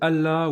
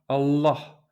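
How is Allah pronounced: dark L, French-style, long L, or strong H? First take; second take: French-style; dark L. First: It is said with a plain French-sounding pronunciation. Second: The L is dark, with the tongue curled back. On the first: "vous sonnerez très français" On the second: "avec un L emphatique"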